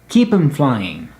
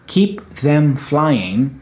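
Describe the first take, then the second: First: The word 'them' is reduced to 'em'. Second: The word 'them' is said in full. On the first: "you might hear keep 'em" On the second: "a short phrase such as keep them flying"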